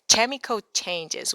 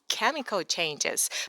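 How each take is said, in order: First: The first word begins with a ch sound. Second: The first word begins with a k sound. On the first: "but she said chemical changes" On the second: "It was chemical changes"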